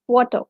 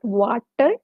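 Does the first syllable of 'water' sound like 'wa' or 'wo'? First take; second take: wo; wa. First: The first syllable has a 'wo' vowel. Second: The first syllable has a 'wa' vowel. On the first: The speaker calls it right. "it's wo, wo sound" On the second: The speaker calls it wrong. "It's not water"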